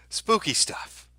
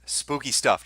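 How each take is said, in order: First: High, far put-on spooky voice; ghost-story voice, drawn out on spooky. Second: Said in the usual way. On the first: Streamer teasing chat about the map, high mock-spooky voice.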